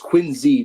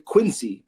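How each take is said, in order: First: The middle consonant is a z sound. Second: The middle consonant is an s sound. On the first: The speaker calls it right. "the real ball knowers know it's a Z" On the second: The speaker calls it wrong. "People will, will pronounce the C"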